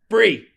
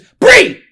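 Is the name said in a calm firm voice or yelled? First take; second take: calm firm; yelled. First: The name is said firmly at normal loudness. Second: The name is shouted loudly and sharply. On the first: The speaker is using authority without aggression. The speaker calls it right. "there's a difference between a teacher voice and raising your voice" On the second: The speaker is raising their voice aggressively. The speaker calls it wrong. "See how she just jumped?"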